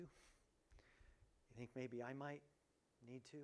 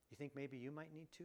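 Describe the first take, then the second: First: Slow and much softer, as if to himself; quiet self-question. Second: Said in the usual way. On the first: Acted. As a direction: drop the voice and turn the question inward, slowly. Same question turned inward.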